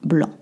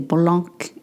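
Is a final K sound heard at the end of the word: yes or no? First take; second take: no; yes. First: The word ends without any K sound. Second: The word ends with an audible K sound. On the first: The speaker calls it right. "So that C at the end, you don't pronounce it" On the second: The speaker calls it wrong. "a lot of my students say blanc, even advanced students"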